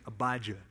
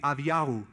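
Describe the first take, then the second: First: The name is said with English sounds. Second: The name is said with Hebrew sounds. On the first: The speaker calls it wrong. "I'll just say" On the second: The speaker calls it right. "If we were to speak in the Hebrew language, his name would be"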